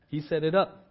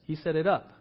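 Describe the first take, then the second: No difference in how they are said.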